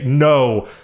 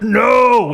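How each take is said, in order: First: The word is said calmly and firmly. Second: The word is screamed loudly.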